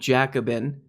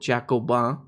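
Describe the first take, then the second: First: The name is said in a plain, ordinary way. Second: The name is said in a fancy, affected way.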